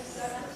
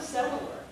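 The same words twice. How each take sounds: First: "settler" in two syllables, set-ler; correct settler. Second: "settler" wrongly stretched into three syllables; mispronounced settler. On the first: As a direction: say "settler" with the L straight after set. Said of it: "The word is settler". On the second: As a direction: say "settler" with an extra syllable before the L. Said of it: "The word is not settler". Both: Shown as a demonstration.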